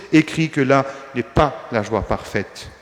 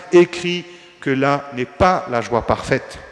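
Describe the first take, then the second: No difference in how they are said.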